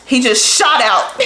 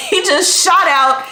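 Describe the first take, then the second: First: Said in the usual way. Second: Laughing it out, higher; a giggle as the words spill out. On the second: Real, not acted. Repeat said while laughing.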